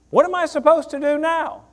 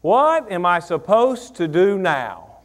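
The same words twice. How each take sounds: First: "supposed" pushed up high, the question lifted and quicker; higher urgent question. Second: "What" leaned on, the whole question drawn out slowly; slow deliberate question. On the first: Pastor repeating the question to the church, higher and urgent. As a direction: ask it again, higher and more pressing. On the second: Pastor posing the question to the church, slow and deliberate. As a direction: ask it slowly, weighing each word. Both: Shown as a demonstration.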